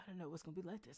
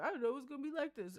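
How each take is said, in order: First: It is said in a small, quiet voice. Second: It is said in an exaggerated, silly voice.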